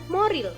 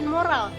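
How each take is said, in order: First: The second vowel is an i sound. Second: The second vowel is an a sound. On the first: The speaker calls it wrong. "kata tidak bakunya menjadi" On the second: The speaker calls it right. "lafalan bakunya"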